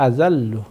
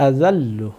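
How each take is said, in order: No difference in how they are said.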